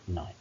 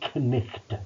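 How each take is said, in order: First: The K and G sounds are silent. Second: The K and G sounds are pronounced. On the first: This is how it is said in modern English. "in standard modern English" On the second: This is how it might have been read in Middle English. "even the K and the G in Knicht"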